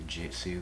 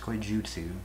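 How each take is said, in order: First: The ending has an 'ih' vowel: jitsu. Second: The ending has an 'oo' vowel: jutsu. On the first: The speaker calls it wrong. "people always say it wrong. They say Jitsu" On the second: The speaker calls it right. "it's Koijutsu, not Jitsu"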